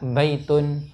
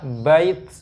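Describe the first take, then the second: First: The word ends with an added -un sound. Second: The word stops sharply on a final t. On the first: The word is read on into the next words. "ketika dibaca dilangsungkan baitun, ya tetap bunyinya ta" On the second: The reader pauses after the word. "ketika diwakafkan tetap tak juga"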